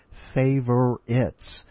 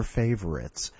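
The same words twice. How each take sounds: First: Favorites drawn out very slowly, final s marked; stressing the plural. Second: Said in the usual way. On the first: Shown as a demonstration. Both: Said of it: "It's being the plural".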